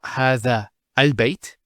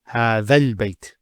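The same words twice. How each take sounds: First: A glottal stop separates the two words. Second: The words run together with no glottal stop. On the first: The speaker calls it wrong. "it's not هذا البيت. You don't pronounce this Hamzat al-Wasl here" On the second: The speaker calls it right. "you go from this alif to this lam"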